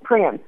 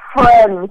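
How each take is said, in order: First: The word begins with a P sound. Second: The word begins with an F sound. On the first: The speaker calls it wrong. "the F is pronounced like a P" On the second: The speaker calls it right. "no, Mom, friends"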